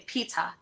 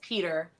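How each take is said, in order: First: The name ends with an 'ah' sound. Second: The name ends with an 'er' sound.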